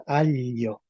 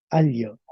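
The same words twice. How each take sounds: First: "alio" with l and glide fused into one palatal sound; palatalized L. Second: "Alio" with an l followed by a y-glide; L plus yod. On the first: Teacher shows what the sound change gives, palatalized L. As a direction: say "alio" as a-llo, with Italian-style gli. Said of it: "esto se va a transformar en". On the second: Teacher shows the class L, yod and vowel, L plus yod. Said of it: "una L con una yod y una vocal". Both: Shown as a demonstration.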